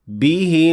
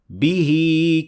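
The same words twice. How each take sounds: First: The final vowel is short. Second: The final vowel is lengthened. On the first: "the second one without" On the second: "The first one is with إشباع"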